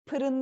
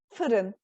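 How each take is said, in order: First: The word begins with a p sound. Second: The word begins with an f sound. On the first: The speaker calls it wrong. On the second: The speaker calls it right.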